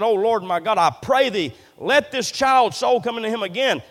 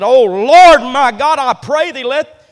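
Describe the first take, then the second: First: Said in the usual way. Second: Loud, higher, anguished opening cry; loud anguished prayer cry; crying out to God. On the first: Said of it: "cried to the Lord and said". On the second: Acted. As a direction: throw the prayer up to heaven. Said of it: "he looks to God and said".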